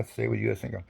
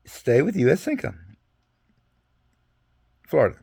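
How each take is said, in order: First: Said in the usual way. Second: Re-read the wording as if checking it; reading it again. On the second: Retold or imitated. Soldier rereading his orders to the sergeant, reading aloud. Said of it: "Let me read it again".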